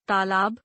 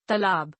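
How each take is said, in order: First: तालाब said as "taalaab" with a long first aa; correct reading. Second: तालाब said as "talab" with a short first a; misspelled reading. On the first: Teacher reads the correct form तालाब. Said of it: "शुद्ध वर्तनी". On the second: Teacher reads the misspelled form तालाब. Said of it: "अशुद्ध वर्तनी". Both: Shown as a demonstration.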